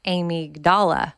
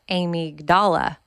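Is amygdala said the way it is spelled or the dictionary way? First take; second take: spelled way; spelled way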